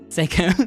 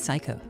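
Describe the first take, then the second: First: The first syllable sounds like 'say'. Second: The first syllable sounds like 'sigh'. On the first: The speaker calls it right. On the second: The speaker calls it wrong. "Probably not Psycho"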